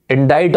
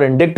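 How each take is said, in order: First: "Indict" as in-DITE, silent c; correct pronunciation. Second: "indict" as in-DIKT, c sounded; variant pronunciation. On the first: Teacher reviewing the quiz answer, "Indict" as in-dite. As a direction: make "Indict" end like kite. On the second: Teacher contrasting both options for students, "indict" as in-dikt. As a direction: put an audible k before the t in "indict". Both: Shown as a demonstration. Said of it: "the pronunciation is indict".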